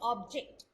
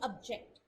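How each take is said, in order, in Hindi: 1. Stress पहले syllable पर है। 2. स्ट्रेस दूसरे सिलेबल पर है। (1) "नाउन है तो उसमें जो स्ट्रेस होगा वो पहले सिलेबल पे होगा" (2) "जो स्ट्रेस होगा वो सेकंड सिलेबल पे आएगा"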